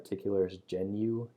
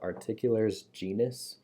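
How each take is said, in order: First: The last word ends without an s sound. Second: The last word ends with an s sound. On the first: The speaker calls it right. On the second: The speaker calls it wrong.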